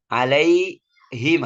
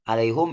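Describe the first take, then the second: First: The vowel after the h is i. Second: The vowel after the h is u. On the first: This is the majority reading. "dibaca kasrah" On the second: This is the reading of one particular reciter. "Dibaca doma"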